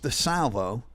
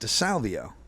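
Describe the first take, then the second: First: The name ends in a plain '-vo' sound. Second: The name ends in an added '-vio' sound. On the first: The speaker calls it right. "his name's DeSalvo" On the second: The speaker calls it wrong. "I pronounce it DeSalvio"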